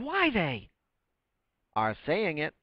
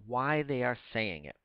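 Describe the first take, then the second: First: It is read with a pause at line end. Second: It is read smoothly without a pause. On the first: The speaker calls it wrong. "the way some people read Shakespeare" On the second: The speaker calls it right. "Just read it out loud and read it naturally"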